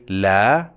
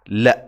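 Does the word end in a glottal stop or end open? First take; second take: open; glottal stop. First: The vowel ends openly without a glottal stop. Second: The vowel is cut off by a glottal stop. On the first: "I didn't say la" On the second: "I said la with the glottal stop"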